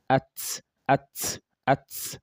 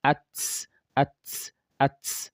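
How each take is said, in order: Both takes have the same delivery.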